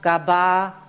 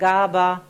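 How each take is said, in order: First: The stress is on the second syllable. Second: The stress is on the first syllable. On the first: "other trials with the iambic stress pattern" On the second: "again had this prosodic pattern"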